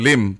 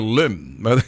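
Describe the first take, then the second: First: The name is said with a Filipino pronunciation. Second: The name is said with an American pronunciation. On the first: "sa totoo sa Pilipino" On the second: "Pag sa Amerikano"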